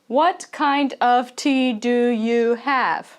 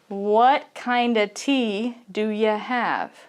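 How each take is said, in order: First: Each word is said fully and separately. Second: The words run together as 'kinda' and 'do ya'. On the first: The speaker calls it wrong. "They don't say" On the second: The speaker calls it right. "kind of is really commonly together. So we will just say kinda"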